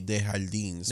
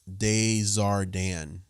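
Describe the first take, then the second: First: The name is read with Spanish pronunciation. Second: The name is said without a Spanish reading. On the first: A Spanish speaker would read the spelling this way. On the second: This is how the name is really pronounced. "No one told them it's pronounced"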